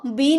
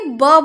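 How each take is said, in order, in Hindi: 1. यह अक्षर अपने नाम से बोला जाता है, bee। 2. यह अक्षर एक छोटी buh ध्वनि से बोला जाता है। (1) "बी नहीं बोलेंगे" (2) "ब बोलेंगे"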